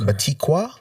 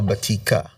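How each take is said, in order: First: The last syllable has a 'w' sound. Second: The last syllable has no 'w' sound. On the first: It follows the spelling. "It's spelled Batikwa" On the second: It is how a family member says it. "my wife says it's Batika"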